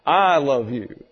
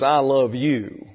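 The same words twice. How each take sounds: First: "I" hit first and hardest, falling away; stress on "I". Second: "I love you" said slowly, weight on "you"; stress on "you". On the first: Man loving her from his own integrity, stress on "I". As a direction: punch "I", let "love you" drop. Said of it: "the emphasis is on the subject". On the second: Young man telling a young lady he loves her, stress on "you". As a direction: lean slowly on the word "you". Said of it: "the emphasis is on her". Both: Shown as a demonstration.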